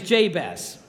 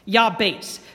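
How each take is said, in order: First: The name begins with a J sound. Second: The name begins with a Y sound. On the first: "the English rendering is Jabez" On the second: "the Hebrew is pronounced Yabates"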